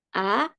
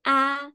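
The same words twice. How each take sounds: First: A glides upward; second tone. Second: A held high and level; first tone. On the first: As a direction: say a with a questioning rise. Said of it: "kalau nada dua". (a dengan nada dua yang naik) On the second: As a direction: sustain a on one high note. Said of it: "untuk nada satu". (a dengan nada satu, tinggi dan rata) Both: Shown as a demonstration.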